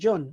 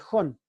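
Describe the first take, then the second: First: It starts with an English J sound. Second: It starts with a Spanish J sound. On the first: "La J en inglés se pronuncia" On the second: "en lugar de"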